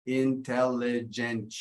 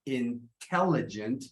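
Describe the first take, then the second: First: "Intelligent" slow, every syllable equally stressed; even syllable stress. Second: "intelligent" slow, stressed on TEL; second-syllable stress. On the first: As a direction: give all syllables of "Intelligent" the same weight. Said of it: "pretty much the same stress for every". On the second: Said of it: "second syllable stress". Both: Shown as a demonstration.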